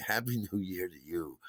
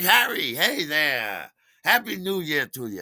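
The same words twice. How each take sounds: First: Said in the usual way. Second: Loud, high, hearty welcome; super friendly bartender. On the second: Retold or imitated. Bartender greeting a regular on New Year's, booming friendliness. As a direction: hail a regular with big cheer. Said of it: "our super friendly bartender".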